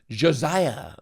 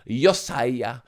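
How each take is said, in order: First: The name is said with an English pronunciation. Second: The name is said with an Austrian pronunciation.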